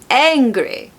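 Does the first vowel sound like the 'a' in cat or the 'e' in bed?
e sound. The first vowel is a short e sound. "turns into"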